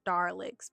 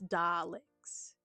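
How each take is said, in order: First: The first syllable sounds like 'dar' with r. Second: The first syllable sounds like 'da' without r. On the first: The speaker calls it wrong. "not Darlicks" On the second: The speaker calls it right. "it's it's Daleks"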